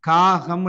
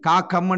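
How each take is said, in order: First: The middle consonant is a soft g sound. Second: The middle consonant is a hard k sound. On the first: The speaker calls it right. "காகம் என்று தான் உச்சரிப்போம்" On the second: The speaker calls it wrong. "காக்கம் யாரும் என்ன சொல்றது இல்லை"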